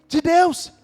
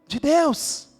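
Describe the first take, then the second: The two takes are said the same way.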